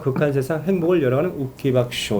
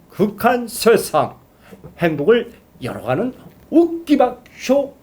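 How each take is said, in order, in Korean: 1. 말이 편하고 자연스럽게 나옵니다. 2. 음절마다 입을 과장되게 움직여 발음합니다. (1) "이게 자연스럽잖아요" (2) "엄청 입을 크게 벌리면서 정확하게 발음하는"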